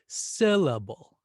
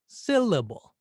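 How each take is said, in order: First: The stress is on the first syllable. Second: The stress is on the first syllable.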